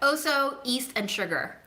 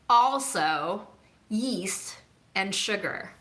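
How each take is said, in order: First: The words are said casually, without careful sounds. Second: The words are said carefully, with every sound clear. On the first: "I gotta not think about it" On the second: "if I think about it, I can try to pronounce it properly"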